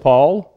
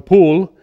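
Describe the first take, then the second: First: The vowel is short and plain. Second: The vowel sounds like 'oo', British style. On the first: "they just say Paul" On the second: "the English speak one way, and they call my older brother Poole"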